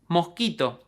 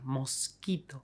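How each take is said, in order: First: The S is softened into a breathy h-like sound. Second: The S is pronounced clearly and fully as s. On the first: This is how it is said in everyday speech. "It is called S aspirada" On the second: This is a careful form never used in real life. "they would probably overpronounce them"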